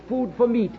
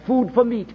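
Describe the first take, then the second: No difference in how they are said.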